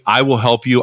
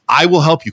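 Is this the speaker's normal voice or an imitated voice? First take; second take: normal; imitated. First: It is said in the speaker's own voice. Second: It is said imitating another man's voice. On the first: "I'm doing my voice" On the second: "I'm trying to do Isaac's voice"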